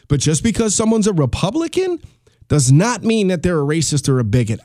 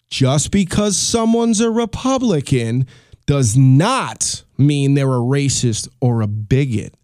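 First: It is said at normal speed. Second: It is said very slowly.

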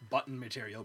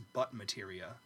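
First: The final sounds of the words are pronounced. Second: The final sounds of the words are dropped. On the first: The speaker calls it right. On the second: The speaker calls it wrong.

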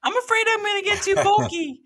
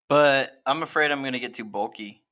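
First: It is said in a put-on voice. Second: It is said in his normal voice.

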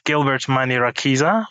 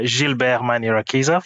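First: The name is said with English pronunciation. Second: The name is said with French pronunciation.

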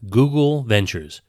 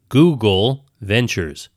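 First: The phrase is said at normal speaking speed. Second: The phrase is said slowly and deliberately.

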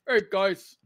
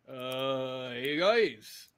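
First: It is said without that put-on voice. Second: It is said in an exaggerated put-on voice. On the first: The speaker calls it right. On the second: The speaker calls it wrong.

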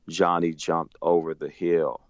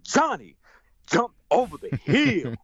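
First: It is read flatly, without expression. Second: It is read lively, with lots of expression.

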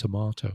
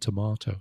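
First: The word is said the British way. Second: The word is said the British way.

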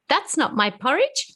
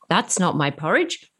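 First: It is said in a high Baby Bear voice. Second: It is said in a medium Mama Bear voice.

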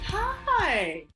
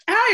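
First: It is said in an exaggerated way. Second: It is said in a plain way.

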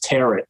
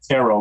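First: The word ends rhyming with carrot. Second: The word ends with an open oh sound. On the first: The speaker calls it wrong. "we thought the word T-A-R-O-T was tarot" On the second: The speaker calls it right. "But you pronounce it tarot"

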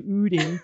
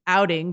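First: The first vowel is short, local Minnesota style. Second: The first vowel is long, not local style.

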